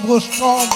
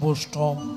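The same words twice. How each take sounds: First: The word is pronounced carefully and fully. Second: The word is pronounced distorted, with a mocking tone. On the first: The speaker calls it right. "বৈষ্ণবটাও উচ্চারণ করছে না" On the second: The speaker calls it wrong. "বলছে বৈষ্ণব"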